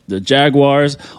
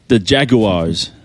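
First: It is said in an American accent. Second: It is said in a British London accent.

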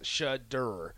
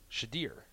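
First: The second syllable sounds like 'dur'. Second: The second syllable sounds like 'deer'. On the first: "S-H-A-D-U-R is how you'd pronounce it" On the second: "Or S-H-A-D-E-E-R"

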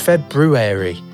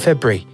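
First: Every sound of the word is said in full. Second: A sound in the middle of the word is dropped. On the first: The speaker calls it right. "It's February" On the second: The speaker calls it wrong. "You're just going February. You're not pronouncing it right"

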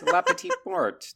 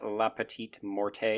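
First: The final E of Morte is silent. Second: The final E of Morte is clearly pronounced. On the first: The speaker calls it right. "The E is not hard" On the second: The speaker calls it wrong. "it is not"

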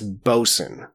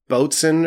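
First: It is said as 'bo-sun', a reduced form. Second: It is said as 'boat-swain', following the spelling. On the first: The speaker calls it right. "It's bosun" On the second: The speaker calls it wrong. "I think I said boatswain or something"

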